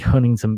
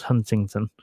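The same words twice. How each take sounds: First: The middle of the word is dropped. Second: The middle of the word is fully pronounced. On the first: The speaker calls it right. "apparently you miss out all the middle, and it's uh, simply" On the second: The speaker calls it wrong. "read it with a British inflection and think it should be pronounced Huntington"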